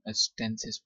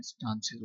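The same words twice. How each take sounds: First: American "स्टेंसेस" with a flat a as in "cat"; American pronunciation. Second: British "स्टांसेस" with a long open "aa"; British pronunciation. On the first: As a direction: say "स्टेंसेस" the American way, STAN-siz. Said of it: "American accent में ये". (अमेरिकी उच्चारण में "स्टेंसेस") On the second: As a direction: say "स्टांसेस" the British way, STAHN-siz. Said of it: "जबकि British accent में". (British उच्चारण में "स्टांसेस") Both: Shown as a demonstration.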